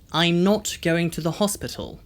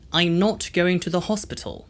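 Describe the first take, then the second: First: A British accent, with rounded 'o' vowels. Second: The same.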